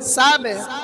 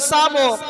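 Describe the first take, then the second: First: The bouncing q sound is thin and light. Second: The bouncing q sound is thick and heavy. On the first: The speaker calls it right. "পাতলা কলকলা" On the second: The speaker calls it wrong. "সাবে যদি বলে সাবো ক তাহলে ভুল"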